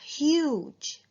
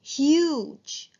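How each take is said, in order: First: "Huge" repeated with a long U, higher; teacher repeating the word. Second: "huge" with a long U, higher; teacher modelling long U. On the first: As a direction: lengthen the U in "Huge". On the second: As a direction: lift and lengthen the U in "huge". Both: Shown as a demonstration. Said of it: "Long U".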